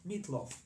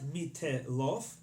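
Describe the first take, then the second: First: The t is short with no vowel after. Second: An extra vowel is sounded after the t. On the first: The speaker calls it right. "It's a short t" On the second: The speaker calls it wrong. "It's not mitelof"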